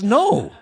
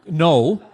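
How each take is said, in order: First: It is said firmly and decisively. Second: It is said weakly and timidly.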